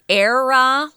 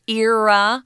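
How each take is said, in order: First: The first vowel sounds like 'air'. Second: The first vowel does not sound like 'air'. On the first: "like air that we breathe" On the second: "they're both correct"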